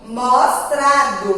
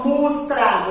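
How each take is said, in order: First: "mostrado" with a clear o in MOS, slowly; careful "mostrado" with o in the first syllable; first o kept. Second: "mostrado" said as "mustrado"; wrong-sound demo, "mostrado" with u in the first syllable. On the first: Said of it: "eu tenho mostrado". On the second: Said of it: "Eu não tenho esse som". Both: Shown as a demonstration.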